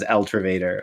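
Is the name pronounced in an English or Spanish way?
English. The name is said with an English pronunciation. The speaker calls it wrong. "mispronouncing it so horribly as El Trevader"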